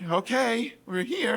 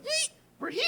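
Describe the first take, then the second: First: Slightly higher, restrained mock agreement; uneasy echo. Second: Very high, squeaky mock glee; excited arrival squeal. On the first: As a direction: go along with it reluctantly. His terrified echo of her cheer. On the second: Acts out Shelley announcing arrival.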